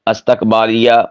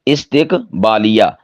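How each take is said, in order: First: It starts with a and has a after t. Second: It starts with i and has i after t. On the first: The speaker calls it wrong. "ये लफ्ज़ इस्तेमाल कर देते हैं" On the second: The speaker calls it right. "ता के नीचे कसरा"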